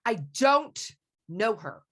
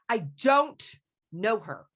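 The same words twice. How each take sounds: First: The stress is on "don't". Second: The stress is on "don't".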